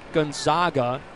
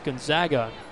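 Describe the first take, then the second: First: The stressed vowel sounds like 'ah' in father. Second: The stressed vowel sounds like 'a' in bag. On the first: The speaker calls it wrong. "Not Gonzaga" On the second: The speaker calls it right. "They're the Zags"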